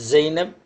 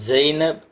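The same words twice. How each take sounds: The two takes are said the same way.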